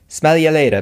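It is said in a put-on English accent.

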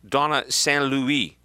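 The name has a French pronunciation.

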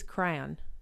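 The word is squeezed into nearly one syllable.

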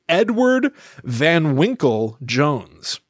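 Van Winkle is set apart like a quoted nickname. Van Winkle is a nickname. The speaker calls it wrong. "I just said his name as if Van Winkle was a nickname"

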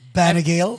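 The name is said with an American pronunciation. "But here"

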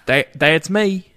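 It is said in a southern accent. The speaker calls it right.

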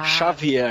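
The name is said with Portuguese pronunciation. The speaker calls it wrong. "O nome Xavier é muito ruim em português"

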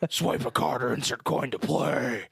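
It is said in a put-on character voice. "but doing the Batman voice"

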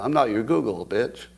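Google and bitch are said as two separate words.

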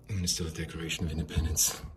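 The voice is very breathy.

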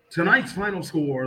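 It is said in a flat, subdued way. The home team lost. "When we lose"

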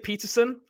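The name is said with a British pronunciation. "In England, we'd say Peterson"

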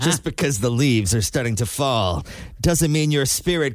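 It is read in a put-on announcer voice. The speaker calls it right. "you got to do it in the voice"

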